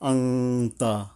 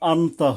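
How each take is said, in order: First: The n is hidden in a light nasal hum. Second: The n is pronounced clearly before the t. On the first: The speaker calls it right. "একটু হালকা আহ, গুণ্য হবে এখানে, এবং অনুস্বর আর কি" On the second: The speaker calls it wrong. "কিন্তু আমরা আনতা বলবো না"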